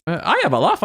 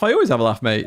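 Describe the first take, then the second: First: Pitched-up jokey take on I have a laugh, stress on I; lightly put-on cheeky voice; mock voice. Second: Said in the usual way. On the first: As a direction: throw it off higher, leaning on I. Repeats line in mock voice.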